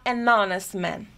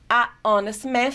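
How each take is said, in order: First: "an honest man" with n carried into honest; "an honest" said as "a-nonest", H silent; smooth linking. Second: "a... honest man", article cut off from the noun phrase; "a honest man" unlinked, H silent, vowels separated; pause after article. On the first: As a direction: join "an" and "honest" without a pause. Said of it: "soa muito melhor". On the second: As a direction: leave a gap between "a" and "honest". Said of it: "ter uma pausa e falar". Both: Shown as a demonstration.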